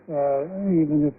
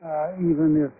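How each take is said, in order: Both takes have the same delivery.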